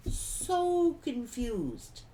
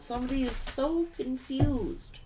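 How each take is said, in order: First: "so confused" drawn out very slowly; slow emphasis. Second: Said in the usual way. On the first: Real, not acted. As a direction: stretch "so confused" out, word by word. Repeats phrase slower for emphasis.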